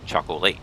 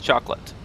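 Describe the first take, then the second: First: The last vowel is a full, hard A. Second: The last vowel is softened and reduced. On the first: This follows the spelling. "but it's spelled chocolate" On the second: This is how people normally say it. "Everyone says chocolate"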